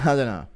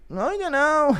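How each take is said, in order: First: Said in the usual way. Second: High-pitched mock Irish voice; put-on Irish fighter, way up high; Conor McGregor. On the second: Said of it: "Connor answering the question".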